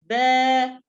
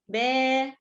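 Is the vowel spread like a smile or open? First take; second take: open; spread. First: The vowel is said with the mouth opened vertically. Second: The vowel is said with lips spread in a smile. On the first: The speaker calls it right. "open your mouth vertically" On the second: The speaker calls it wrong. "Don't read with a smiley way"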